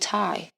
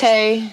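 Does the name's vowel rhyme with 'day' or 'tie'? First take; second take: tie; day. First: The vowel sounds like the one in 'tie'. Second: The vowel sounds like the one in 'day'. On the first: The speaker calls it wrong. "they call me Ty. My name's not Ty" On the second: The speaker calls it right. "it's Tay"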